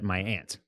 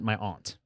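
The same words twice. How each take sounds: First: The vowel in aunt sounds like ant. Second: The vowel in aunt sounds like ahnt. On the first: "that's how I pronounce the word for your parents' sister" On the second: "not my aunt"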